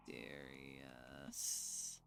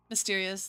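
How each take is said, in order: First: Low, slow mysterious murmur. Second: Said in the usual way. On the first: Shown as a demonstration. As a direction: drawl mysterious like a secret.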